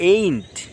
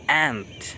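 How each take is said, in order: First: The vowel is a gliding 'ay' sound. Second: The vowel is the open 'a' of 'cat'. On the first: The speaker calls it wrong. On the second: The speaker calls it right.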